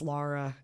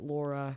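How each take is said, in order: First: The first vowel sounds like 'ah'. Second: The first vowel sounds like 'aw'. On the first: The speaker calls it right. "but it's Lara" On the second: The speaker calls it wrong. "most people say it Laura"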